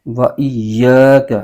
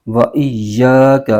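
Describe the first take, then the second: Both takes have the same delivery.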